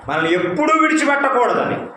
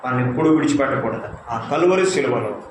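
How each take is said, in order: First: ఎప్పుడూ lifted high and stressed; emphatic, raised pitch. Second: Said in the usual way. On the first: Shown as a demonstration. Preacher stressing to the congregation that Christ never leaves them. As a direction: press hard on ఎప్పుడూ, voice up high. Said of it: "repeated with different emphasis". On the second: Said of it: "repeated phrase".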